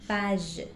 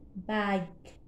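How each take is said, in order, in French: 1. Le g est doux, comme le s dans measure. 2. Le g est dur, comme le g dans go. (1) "si j'efface U, ça se lit bage" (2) "pour avoir le son G, j'ajoute U"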